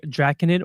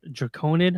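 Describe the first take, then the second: First: Draconid stressed up front, DRACK-uh-nid; first pronunciation variant. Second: Draconid stressed mid-word, druh-CONE-id; second pronunciation variant. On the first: Host offers one guess at Draconid, as DRACK-uh-nid. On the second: Host offers another guess at Draconid, as druh-CONE-id. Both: Shown as a demonstration. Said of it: "not sure how you pronounce it".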